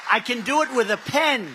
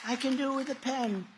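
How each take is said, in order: First: Said in the usual way. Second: Much softer, almost to himself; hushed aside echoing his own line; quiet repeat. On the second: Acted. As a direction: drop the voice for the repeat. Repeats the pen line twice.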